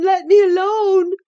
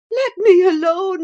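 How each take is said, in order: First: High, tearful sobbing plea. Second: High sobbing plea. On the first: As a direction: cry out the plea in tears. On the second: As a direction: beg through sobs. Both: A narrator's reading. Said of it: "sobbed Catherine".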